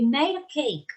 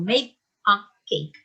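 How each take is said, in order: First: The d in made sounds like a quick r. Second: The d in made is clearly and strongly pronounced. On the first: The speaker calls it right. "no marcamos tanto el made, sino we made a cake. Es como que si fuera una R" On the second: The speaker calls it wrong. "No digo made a cake"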